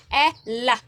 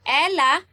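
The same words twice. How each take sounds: First: "ela" split into two slow beats, e then la; different accent. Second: Said in the usual way. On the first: Shown as a demonstration. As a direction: break "ela" after e, accenting it deliberately. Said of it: "kung naa siya different accent". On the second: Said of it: "Anay siya without original accent".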